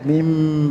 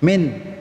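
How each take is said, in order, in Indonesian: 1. Kata ini berakhir dengan bunyi m yang ditahan. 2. Kata ini berakhir dengan bunyi n. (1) "Mimnya ditahan dikit" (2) "Min itu n kan"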